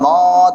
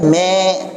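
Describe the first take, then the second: First: The syllable ma sounds heavy and thick. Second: The syllable is thinned too far, toward me. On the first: "jangan ma" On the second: "Jangan juga berlebihan me"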